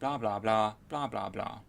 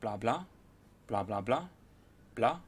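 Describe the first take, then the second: First: The chunks are evenly spaced and same length. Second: The chunks vary in length and spacing.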